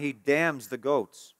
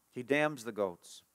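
First: Said in the usual way. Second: Subdued repetition. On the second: Real, not acted. Preacher repeats the verdict on the goats, subdued. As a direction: let it sink in quietly, slowly. Same line repeated, lower and softer.

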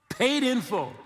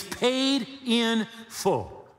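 First: Higher ringing repeat of Paid in full; echoed punch. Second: Each word slowed and weighted, PAID leaned on; slow emphatic. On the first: Preacher repeating to congregation, ringing emphatic echo. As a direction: throw the phrase back up. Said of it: "that means paid in full". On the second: Preacher to congregation, slow emphatic stress on paid. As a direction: drive home paid in full. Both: Shown as a demonstration.

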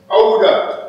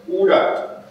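First: Much higher, punchier comeback; high, forceful echoed question; retorting challenge. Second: High, half-voiced challenge; a stranger's high-pitched query; challenging call. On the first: Acted. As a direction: throw the challenge back high and hard. Poet answers the challenge back. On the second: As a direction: call it out high without raising the volume. Poem's overheard voice challenges.

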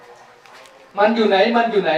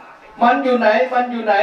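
First: "มันอยู่ไหน" stretched out very slowly; very slow asking. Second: Higher, slower mock yell; mock shout. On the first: Retold or imitated. Mo walks up asking where he went, very slow. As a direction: drag out each "มันอยู่ไหน" word by word. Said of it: "เดินมาบอกว่า". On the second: The monk shouts after the scholar, a light mock yell. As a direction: call out a bit high and slow, lightly acted. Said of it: "ก็มีเสียงตะโกนขึ้นมาว่า".

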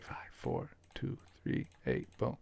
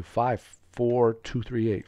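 First: Whispering the code to himself; hushed whisper of the digits. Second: Said in the usual way. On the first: Real, not acted. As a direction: breathe the numbers out, no voice. Repeating code to self.

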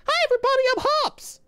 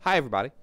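First: Very high, loud cartoon pet voice; character voice for Hops. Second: Said in the usual way. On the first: Shown as a demonstration. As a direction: speak as the cute pet Hops. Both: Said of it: "repeats greeting in a new voice".

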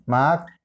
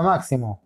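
First: MÁXIMO split as mak, si, mo with long gaps; syllable by syllable. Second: Said in the usual way. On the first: Shown as a demonstration. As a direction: break "Máximo" into three separate syllables. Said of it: "Separamos en sílaba máximo". («Máximo» separado en sílabas: mak, si, mo) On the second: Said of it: "Separamos en sílaba".

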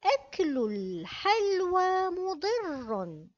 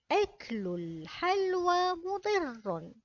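First: الحلوى with the lam sounded, slow; slow model reading. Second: الحلوى again with the lam sounded, slow; slow repeat. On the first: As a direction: read أكل الحلوى مضر slowly, lam clear. (قراءة بطيئة: الحلوى بلام ظاهرة) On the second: (إعادة بطيئة: الحلوى بلام ظاهرة) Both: Shown as a demonstration. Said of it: "كلمة الحلوى".

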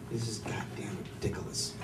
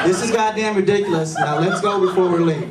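First: Low, soft mumbled ridiculous; muttered take. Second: Higher, louder, laughing "ridiculous"; agreeing take. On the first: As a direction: mumble "ridiculous" under your breath. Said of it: "it's pronounced ridiculous". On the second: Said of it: "you're absolutely right". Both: Retold or imitated.

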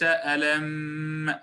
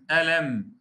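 First: "ألم" with its last م drawn out in a long hum; over-held ghunnah. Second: "ألم" ending in a brief م; correct ghunnah length. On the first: Teacher contrasting the wrong form with the right one, "ألم" overlong on م. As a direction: stretch the closing م of "ألم" much too long. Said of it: "وليس". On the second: Teacher repeating the correct form for students, "ألم" with a short م. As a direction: say "ألم" without stretching the closing hum. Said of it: "والصواب قوله تعالى". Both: Shown as a demonstration.

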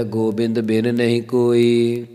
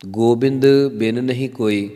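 First: Scripture recitation. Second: Said in the usual way. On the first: Acted. Reciting Gurbani line in katha. (ਹੌਲੀ ਸ਼ਰਧਾ ਭਰਿਆ ਪਾਠ)

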